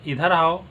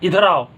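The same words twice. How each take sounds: First: It is said in a gentle tone. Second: It is said in an angry tone.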